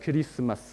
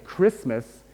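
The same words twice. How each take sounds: First: It is said Japanese-style with added vowels. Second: It is said with an English pronunciation.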